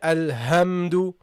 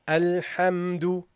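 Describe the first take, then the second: First: The h is a plain, light h sound. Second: The h is a deep, breathy throat sound. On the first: The speaker calls it wrong. "You don't make it a ha" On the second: The speaker calls it right. "We said that you say Alhamdu"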